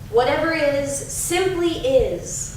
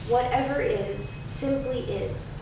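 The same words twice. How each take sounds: First: It is said loudly with great enthusiasm. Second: It is said in a softer voice. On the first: "first in a loud voice" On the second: "And softer now"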